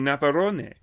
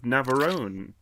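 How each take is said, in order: First: It is said in an exaggerated Spanish accent. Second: It is said in a plain English accent. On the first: "Now you're just being offensive" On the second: "the way you said it doesn't even sound Mexican"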